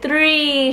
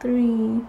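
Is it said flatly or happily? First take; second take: happily; flatly. First: It is said happily and with excitement. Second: It is said flatly, without excitement.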